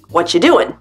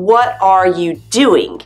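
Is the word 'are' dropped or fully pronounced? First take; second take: dropped; fully pronounced. First: The word 'are' is dropped entirely. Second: Every word is pronounced, including 'are'.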